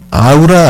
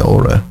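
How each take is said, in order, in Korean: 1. 한국식으로 세 음절 a-u-ra로 발음해요. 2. 영어 모음으로 발음해요, aw-ra. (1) "한국 사람들이 아우라라고 발음을 하는데 아우라 아닙니다" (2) "aura예요"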